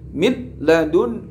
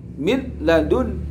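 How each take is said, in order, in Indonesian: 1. Bunyi n diucapkan dengan jelas sebelum l. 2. Bunyi n diucapkan dengan jelas sebelum l.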